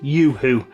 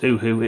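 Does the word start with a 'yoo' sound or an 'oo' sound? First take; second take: yoo; oo. First: The word starts with a 'yoo' sound. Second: The word starts with a plain 'oo' sound. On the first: This is the suggested English-style pronunciation. "because I'm an English-speaking country, pronounce it Yoo-hoo" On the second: This is how the speaker has always said it. "I've always pronounced it Uhu"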